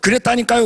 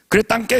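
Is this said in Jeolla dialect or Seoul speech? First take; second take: Seoul; Jeolla. First: It is said in standard Seoul speech. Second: It is said in clipped Jeolla dialect. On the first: "서울에서" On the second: "전라도에서"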